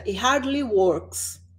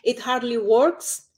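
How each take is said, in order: First: It is said slowly and clearly. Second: It is said fast with sounds running together. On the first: "Eu estou falando mais claro" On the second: "se eu for falar rápido"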